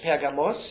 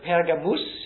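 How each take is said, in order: First: It is pronounced the Greek way. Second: It is pronounced the Latin way. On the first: "ist Griechisch" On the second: "ist Lateinisch"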